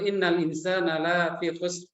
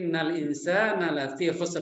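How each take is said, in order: First: The vowel in 'la' is long. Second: The vowel in 'la' is short. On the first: Humankind is not in loss. The speaker calls it wrong. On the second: Humankind is truly in loss. The speaker calls it right.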